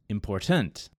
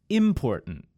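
First: The stress falls on the third syllable. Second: The stress falls on the first syllable. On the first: "In the third word, important, which is also incorrect, I emphasize the third syllable, tent" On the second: "In the word important, which is incorrect, I emphasized the first syllable, im"

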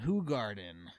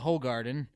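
First: The first syllable sounds like 'who'. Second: The first syllable sounds like 'ho'. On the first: The speaker calls it right. "you pronounce it with a who and not a ho" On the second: The speaker calls it wrong. "or as it's spelled"

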